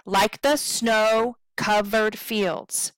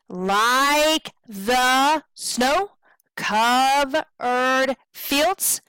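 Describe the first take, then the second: First: LIKE THE short, SNOW long, COVERED short, FIELDS long; correct anapestic stress. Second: LIKE, THE and COV dragged long, SNOW cut short, FIELDS rising; wrongly stressed rhythm. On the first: Teacher correcting the rhythm, long stresses on SNOW and FIELDS. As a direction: land the weight on "snow" and "fields". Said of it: "stress and unstressed marks are not correct". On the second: Teacher showing incorrect stresses, LIKE THE COVERED drawn out, SNOW short. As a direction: invert the meter, long "LIKE THE", short questioning "snow". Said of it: "That sounds really weird".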